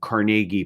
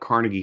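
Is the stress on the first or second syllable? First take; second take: second; first. First: The stress is on the second syllable. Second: The stress is on the first syllable. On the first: This is how the man himself said his name. The speaker calls it right. "with the emphasis on the second syllable" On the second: This is how locals commonly name the hall. The speaker calls it wrong. "say it wrong"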